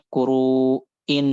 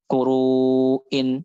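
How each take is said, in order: First: KURU'IN with a gap, then forced "in"; exaggerated hamzah. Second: KURU'IN with held "ruu" and clean "in"; measured hamzah. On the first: Teacher shows the forbidden reading, overdone hamzah in KURU'IN. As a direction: detach and push the "in" of "kuru'in". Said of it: "nggak boleh". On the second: Teacher gives the proper word, measured hamzah in KURU'IN. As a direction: stretch "ruu" in "Kuru'in", then an easy catch. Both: Shown as a demonstration.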